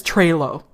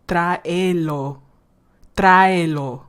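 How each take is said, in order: First: Trailer with a single ay diphthong like the English word; mocking anglicized Spanish. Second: Tráelo with every vowel separate, TRA-e-lo, slowly; correct Spanish. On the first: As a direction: say tráelo wrong, as trailer. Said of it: "But he says trailer". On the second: Shown as a demonstration. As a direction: split the vowels in tráelo, a then e. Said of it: "is how you're supposed to say it".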